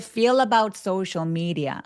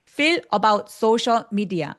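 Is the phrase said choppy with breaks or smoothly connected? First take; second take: connected; choppy. First: The phrase flows as one connected chunk. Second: The phrase is broken up with small breaks. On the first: The speaker calls it right. "저처럼 덩어리로 얘기해 주세요" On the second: The speaker calls it wrong. "나도 모르게 끊기는 부분이 있을 수 있는데"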